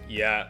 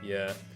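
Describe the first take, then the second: First: The word is said in an angry tone. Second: The word is said in a depressed tone. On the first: "There's angry"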